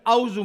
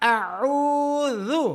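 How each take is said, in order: First: The middle consonant is a z sound. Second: The middle consonant is a th sound. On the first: The speaker calls it wrong. "دو غلطیاں آپ نے کر لی" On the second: The speaker calls it right. "میں پڑھنا تھا اعوذ"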